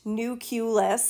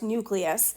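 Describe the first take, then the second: First: An extra vowel sound comes between k and l. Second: No vowel sound comes between k and l. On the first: The speaker calls it wrong. "it is not pronounced nucleus, as you note, there's no U here between the C and the L" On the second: The speaker calls it right. "It's pronounced nucleus"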